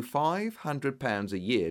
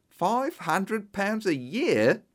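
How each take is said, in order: First: Said in the usual way. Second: Higher, slow, stretched-out disbelief; stunned, drawn-out question; astonished shout. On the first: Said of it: "Five hundred pounds a year?" I shouted". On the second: A narrator's reading. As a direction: repeat the sum as if you can't believe your ears. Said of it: "I shouted".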